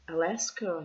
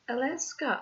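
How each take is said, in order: First: It is said in a normal voice. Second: It is said in a small, squeaky voice.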